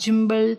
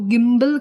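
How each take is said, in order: First: The word begins with a j sound. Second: The word begins with a hard g sound. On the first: The speaker calls it wrong. "ऐसा कुछ भी अलग नहीं कहना है" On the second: The speaker calls it right. "गिम्बल को गिम्बल कहा जाता है"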